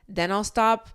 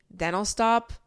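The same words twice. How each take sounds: The two takes are said the same way.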